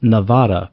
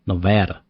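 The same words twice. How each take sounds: First: It is said with a Spanish-style pronunciation. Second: It is said with the local pronunciation. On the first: This is the speaker's former way of saying it. "which I used to pronounce as Nevada before I moved here because it is, you know, a Spanish word" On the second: This is how people in the state say it. "But out here, they don't- they want to make it Nevada"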